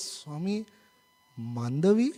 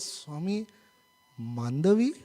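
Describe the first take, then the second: First: It is said feebly, rising like a question. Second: It is said feebly, rising like a question.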